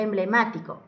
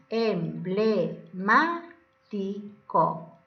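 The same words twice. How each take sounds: First: Said in the usual way. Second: "Emblemático" very slowly, em, ble, má, ti, co; syllable by syllable. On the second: Shown as a demonstration. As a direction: pause after each syllable of "Emblemático". ("Emblemático" silabeado lentamente: em, ble, má, ti, co) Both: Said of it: "Primero silabeamos".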